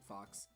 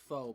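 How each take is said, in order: First: The word ends with a clear ks sound. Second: The word ends in an open vowel, no x. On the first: "he pronounces it fox because puns" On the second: "it's supposed to be pronounced faux"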